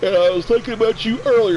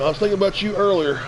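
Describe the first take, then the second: First: Words stretched by a real yawn, higher and louder; yawning mid-sentence; said through a yawn. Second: Said in the usual way. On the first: Real, not acted. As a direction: talk right through the yawn. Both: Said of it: "Excuse me for yawning".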